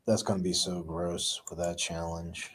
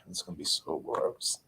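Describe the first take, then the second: First: Said in the usual way. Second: Whispered to herself; breathy whisper of disgust. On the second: Real, not acted. Repeated line whispered.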